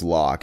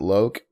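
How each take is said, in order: First: The vowel is short, rhyming with 'lock'. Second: The vowel is long, rhyming with 'joke'. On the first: "I thought that that name was pronounced Locke" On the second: "Is it Loke?"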